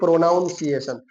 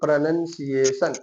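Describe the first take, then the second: First: The second syllable sounds like 'noun'. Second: The second syllable sounds like 'nun'. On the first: The speaker calls it wrong. "Not के प्रोनाउंसिएशन" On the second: The speaker calls it right. "उसके लिए word आता है प्रोनंसिएशन"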